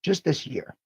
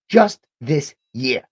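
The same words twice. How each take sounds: First: Said in the usual way. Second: "Just this year" slower and louder, each word weighted; slow emphatic stress. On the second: Real, not acted. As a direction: lean hard on "Just this year", slowly. Emphatic repeat.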